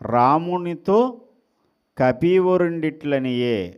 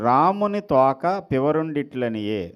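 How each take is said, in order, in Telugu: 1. 'to' అక్షరం తర్వాత వెంటనే విరామం ఉంటుంది. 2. 'to' అక్షరానికి ముందే విరామం ఉంటుంది. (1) "అక్కడ రామునితో గ్యాప్ ఇచ్చి కపివరుండిట్లనియే అని అనాలి" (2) "అక్కడ గ్యాప్ ఇవ్వడం మానేసి కొంచెం గ్యాప్ మార్చామనుకోండి"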